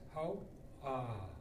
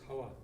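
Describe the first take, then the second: First: It has a glottal break and a rising end. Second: It is one plain syllable without any break. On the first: It expresses deep heartfelt thanks. The speaker calls it right. "glottal stop ... your vocal inflection is going to go up" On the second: It sounds shallow, like a quick thanks. The speaker calls it wrong. "it's not just how"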